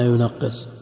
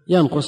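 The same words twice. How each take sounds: First: It is read yunaqqis, with a doubled middle consonant. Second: It is read yanqus, with no doubled consonant. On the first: "وإذا ضعفناه قلنا ينقص" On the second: "إذا قلنا الثلاثي متعدي بنفسه"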